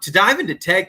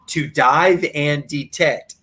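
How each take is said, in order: First: The name is said quickly and runs together. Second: The name is said slowly with clear words. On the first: The speaker calls it wrong. "You can't say the name of their channel too quickly" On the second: The speaker calls it right. "I got to say that slowly"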